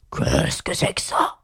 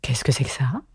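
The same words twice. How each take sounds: First: Slow, drowsy beast voice, creaky and drawn out; deep, booming lion. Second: Lightly voiced unicorn, low and airy; puzzled creature. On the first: Sleepy lion eyeing Alice, deep and slow. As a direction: toll it out like a big bell. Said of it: "en parlant d'une voix basse et profonde". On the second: Unicorn asking about Alice, puzzled and hushed. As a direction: ask in a hushed, lower character voice. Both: A narrator's reading.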